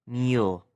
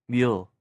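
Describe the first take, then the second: No difference in how they are said.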